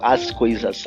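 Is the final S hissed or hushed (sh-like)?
hissed. The final S is a plain hissing S.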